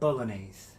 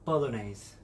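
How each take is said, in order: First: It is said with an American English accent. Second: It is said with an American English accent.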